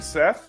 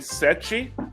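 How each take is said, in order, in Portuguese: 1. O nome termina com um som de 'th'. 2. O nome termina com um som de 'chee'.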